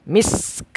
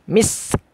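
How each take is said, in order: No difference in how they are said.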